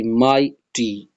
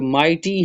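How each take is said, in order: First: mighty slow and low, as mai, ti; a clear gap inside mighty; syllable by syllable. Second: Said in the usual way. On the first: Shown as a demonstration. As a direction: sound out mighty in two slow beats. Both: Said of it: "ये टू syllable है".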